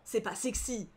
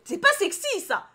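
First: Said in the usual way. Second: Very high, loud protest; indignant outburst. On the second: Real, not acted. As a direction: squeal it in outrage. Shouted repeat of the calm take. (protestation indignée, très aiguë et forte)

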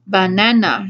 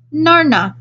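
First: "Banana" said slowly, falling, full of doubt; "Banana" as if tasting a strange word; suspicious "Banana" with a falling tune; dubious. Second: Put-on "Narna" chirped high by a small child; "Narna" as a delighted toddler's half-word for banana; high, happy baby-talk "Narna". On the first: Acted. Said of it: "she said dubiously". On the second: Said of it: "he said happily".

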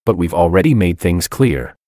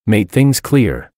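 First: Said in the usual way. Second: Slow, slightly raised mock shout on made things clear; a mild narrated outburst, slowed down; lightly voiced indignant shout; sudden shout. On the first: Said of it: "April frowned". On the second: A narrator's reading. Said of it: "he suddenly shouted".

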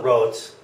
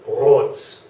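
First: Said in the usual way. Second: "rot" with a German r gargled at the uvula; "rot" started with a throaty uvular r. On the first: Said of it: "it's not rot". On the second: Shown as a demonstration. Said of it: "it's rot".

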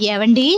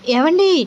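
First: Said in the usual way. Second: Higher rising call to her husband. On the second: Acted. Wife calling her brooding husband, higher rising call. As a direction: call him once more, pitched up. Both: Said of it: "అంత గట్టి గట్టిగా అరుస్తున్నావు".

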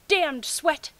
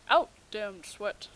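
First: Said in the usual way. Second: Slow, mock-grand Macbeth line; Shakespearean recital. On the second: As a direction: declaim it like a lightly hammed Lady Macbeth, slowly. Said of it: "Macbeth references for the win".

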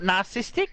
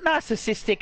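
First: "narcissistic" squashed to "nar-sis-tic"; mocked mispronunciation. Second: "narcissistic" with the second syllable kept in; correct pronunciation. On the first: Mocking the other player's English, clipped-short "narcissistic". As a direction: drop the second syllable of "narcissistic". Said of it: "It's not narcissistic. Learn English". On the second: Shown as a demonstration. Correcting the other player's English, full "narcissistic". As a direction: say "narcissistic" with all four syllables. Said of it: "Learn English".

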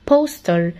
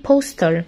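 The two takes are said the same way.

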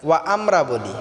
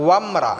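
First: ওয়া আমরা split apart, ওয়া then আমরা; wrong pronunciation. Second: ওয়ামরা run together in one word; correct joined pronunciation. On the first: Teacher showing common mistake, ওয়া আমরা split. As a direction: pause between ওয়া and আমরা. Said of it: "এখানে ওয়া আমরা হবে না". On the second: Teacher showing correct joined ওয়ামরা. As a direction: join ওয়ামরা without a break. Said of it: "ওয়াও মিম জবর". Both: Shown as a demonstration.

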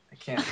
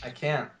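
First: "I can't" in a high, squeaky attempt at Cockney; a quick, poor stab at a Cockney accent; mock Cockney attempt. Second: Said in the usual way. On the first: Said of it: "my attempt at Griffin's attempt at Cockney". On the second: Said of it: "Griffin can't do British accent".

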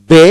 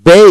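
First: বে with a single pure e vowel; American pronunciation. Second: বে gliding into "bei"; British pronunciation. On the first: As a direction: say বে with no closing i glide. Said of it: "প্রথমটি হলো American". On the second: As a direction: end বে on a clear i glide. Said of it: "দ্বিতীয়টি British". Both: Shown as a demonstration.

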